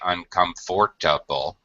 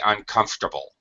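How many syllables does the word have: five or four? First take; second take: five; four. First: It is said with five syllables. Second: It is said with four syllables. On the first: The speaker calls it wrong. "We don't say uncomfortable. We don't make a five syllable word" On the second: The speaker calls it right. "native speakers drop the middle syllable. We say uncomfortable"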